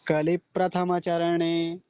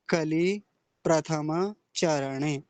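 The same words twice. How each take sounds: First: The words are joined smoothly without pauses. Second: The words are said separately with pauses. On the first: "जब एक साथ बोलेंगे, देखिए कैसा अच्छा लगता है ये।" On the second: "एक है कि अलग अलग बोला, अलग अलग सुनिए।"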